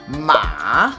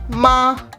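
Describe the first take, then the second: First: It is said with a rising-falling tone. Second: It is said in the first tone. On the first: It means horse. "the rising falling tone" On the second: It means mom. "In first tone"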